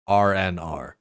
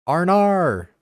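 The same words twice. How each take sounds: First: Said in the usual way. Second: "R N R" said high and loud, letters blurred into one word; R N R run together. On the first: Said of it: "You just gotta say it really fast". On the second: Shown as a demonstration. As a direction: rattle off "R N R" fast like "Arnar". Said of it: "You just gotta say it really fast back to back".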